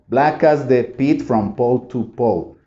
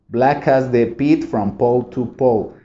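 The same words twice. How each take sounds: No difference in how they are said.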